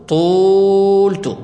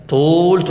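First: طولت stretched very slowly and louder, the و held; slow stressed demo. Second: Said in the usual way. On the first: Shown as a demonstration. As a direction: draw out طولت, pressing on the و. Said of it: "عندنا ضمة سننقلها فسنقول". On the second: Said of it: "أليس كذلك؟".

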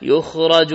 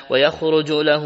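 First: يخرج said "yukhraju", u on the ya; passive-form vowels in يخرج, "yukhraju"; damma on ya. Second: ويخرج said "wa-yakhruju", a-vowel on the ya; active-form vowels in ويخرج, "yakhruju"; fath on the first letter. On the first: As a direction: read يخرج as "yu-KHRA-ju", a after the kh. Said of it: "بالياء وضمها". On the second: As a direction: read ويخرج as "ya-KHRU-ju", u after the kh. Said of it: "بفتح الياء وضم الياء". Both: Shown as a demonstration.

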